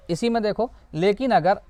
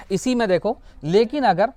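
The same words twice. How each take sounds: The two takes are said the same way.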